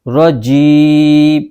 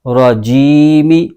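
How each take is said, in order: First: The word ends abruptly on the m sound. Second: The word ends with a short i vowel. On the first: The reading stops at this word. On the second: The reading continues without stopping.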